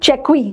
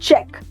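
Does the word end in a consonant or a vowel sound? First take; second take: vowel; consonant. First: The word ends with an added vowel sound. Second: The word ends on a plain k sound. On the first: The speaker calls it wrong. "We don't call it checkwi" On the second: The speaker calls it right. "The pronunciation ends here"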